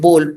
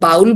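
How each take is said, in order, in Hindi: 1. इसमें स्वर 'go' के 'oh' जैसा सुनाई देता है। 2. इसमें स्वर 'cow' के 'ow' जैसा सुनाई देता है। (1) "बट एक्चुअली ये बोल बोला जाता है" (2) "हम इसको बाउल बोलते हैं"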